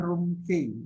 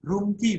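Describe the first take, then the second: First: Room key with key said as letter K; teacher shows the wrong room key, KAY; wrong key demo. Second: Room key with key as KEE; teacher shows hotel key said KEE; correct key. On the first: Key yang salah diucapkan kei. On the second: Key diucapkan ki. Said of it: "Yang benar key". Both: Shown as a demonstration.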